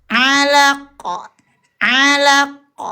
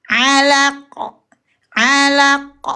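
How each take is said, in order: The two takes are said the same way.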